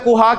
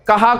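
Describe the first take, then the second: First: The first vowel is a short 'u'. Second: The first vowel is a short 'a'. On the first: The speaker calls it wrong. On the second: The speaker calls it right.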